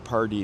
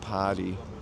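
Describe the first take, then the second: First: The R sound is clearly pronounced. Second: The R sound is dropped. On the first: "I usually will say party now" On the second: "I won't pronounce my R"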